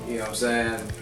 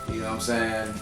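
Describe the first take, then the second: No difference in how they are said.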